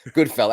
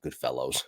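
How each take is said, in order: First: The title ends with a casual 'fellas' sound. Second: The title ends with a full 'fellows' sound. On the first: The speaker calls it right. "I can't even say it right" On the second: The speaker calls it wrong. "That's the English version"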